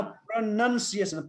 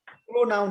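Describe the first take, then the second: First: प्रोनन्सिएसन with NUN in the middle; correct pronunciation. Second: प्रोनाउन with an OW in the second syllable; wrong pronunciation. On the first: Teacher correcting the student, प्रोनन्सिएसन with a short NUN. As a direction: say प्रोनन्सिएसन as pra-nun-see-ay-shun. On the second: Teacher rejecting the student's reading, प्रोनाउन said as pro-NOUN. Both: Shown as a demonstration. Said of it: "प्रोनाउन होइन".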